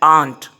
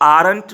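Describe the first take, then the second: First: The r sound is silent in the word. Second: The r sound is pronounced in the word. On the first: The speaker calls it right. "इसमें आर silent है" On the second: The speaker calls it wrong. "इसको आरंट नहीं बोलना है आपने"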